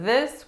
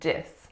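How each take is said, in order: First: The word begins with a voiced th sound. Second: The word begins with a d sound. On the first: "If we change the th with a d sound instead of this" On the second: "with a d sound"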